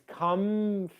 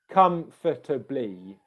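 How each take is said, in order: First: The second vowel drops, giving three syllables. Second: It is said slowly with four full syllables.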